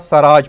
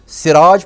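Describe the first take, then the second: First: The first syllable has the vowel 'a'. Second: The first syllable has the vowel 'i'. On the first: "सीन के ज़बर के साथ पढ़ेंगे" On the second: "सीन की ज़ेर के साथ पढ़ेंगे"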